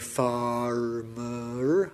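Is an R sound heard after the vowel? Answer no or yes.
yes. An R sound is pronounced after the vowel. "I don't say farmer"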